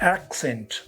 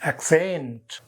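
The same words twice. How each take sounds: First: The stress is on the first syllable. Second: The stress is on the second syllable. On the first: It is used as a noun. "if it is a noun, you say accent. The stress comes on the first syllable" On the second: It is used as a verb. "But when it is a verb, it is accent"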